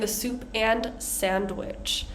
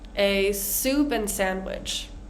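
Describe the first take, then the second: First: "And" is said fully with its D. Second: "And" is reduced to "an" without D. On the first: The speaker calls it wrong. "I'm not saying a soup and sandwich" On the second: The speaker calls it right. "and turns into an"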